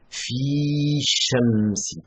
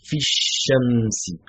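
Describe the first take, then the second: First: The vowel of "fi" is long. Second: The vowel of "fi" is short. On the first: The speaker calls it wrong. "On dit pas" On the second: The speaker calls it right. "ils ne prononcent pas le, la prolongation. Ils vont dire"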